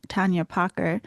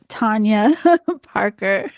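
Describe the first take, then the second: First: Tanya Parker with a slipped Boston accent, the r in Parker dropped as Pahka. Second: Tanya Parker said again through laughter, louder, the r in Parker spoken clearly; laughing correction. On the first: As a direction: let a Boston accent slip into Parker, rising at the end. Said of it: "My Boston accent just came back". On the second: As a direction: correct the name while laughing at yourself. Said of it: "I'm sorry about that". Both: Real, not acted.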